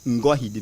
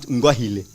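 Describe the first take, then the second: First: The last syllable begins with a d sound. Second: The last syllable begins with an l sound. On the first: The speaker calls it right. "but Ngohide" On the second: The speaker calls it wrong. "it is not Ngohile"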